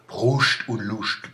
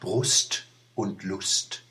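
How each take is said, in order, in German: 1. Es wird im regionalen Dialekt gesprochen. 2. Es wird im Standarddeutsch gesprochen. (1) "Sag es mal" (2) "Und jetzt sag es mal auf Hochdeutsch"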